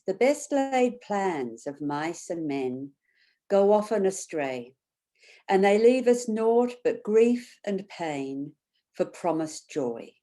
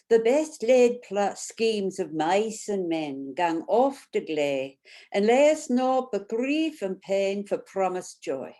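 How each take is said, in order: First: Said in the usual way. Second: Reading Burns in a broad Scottish accent; thick Scottish accent. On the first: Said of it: "and then I'll read it in English". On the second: Shown as a demonstration. Facilitator reads a Burns poem to her group, thick Scottish accent. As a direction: roll it out like a Scots reciter. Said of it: "I'll read it out first with a thick Scottish accent".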